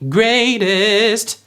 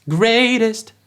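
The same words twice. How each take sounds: First: "greatest" with the last syllable held and weighted; stressed final syllable. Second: "greatest" with the last syllable dropped light and short; final syllable thrown off. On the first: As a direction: lean on the end of "greatest". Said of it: "That's not going greatest". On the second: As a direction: hit "great", toss away "-est". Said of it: "throw those final syllables off". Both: Shown as a demonstration.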